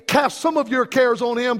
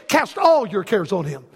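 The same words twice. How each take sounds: First: "some" picked out as the wrong word; stress on some. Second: "all" punched, then the pitch falls away; stress on all. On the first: Preacher misquoting the verse to his congregation, stress on "some". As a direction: lean on "some" to set up the contrast. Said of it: "It doesn't say". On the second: Preacher correcting the verse for his congregation, stress on "all". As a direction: hit "all", then drop lower to close. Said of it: "It says". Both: Shown as a demonstration.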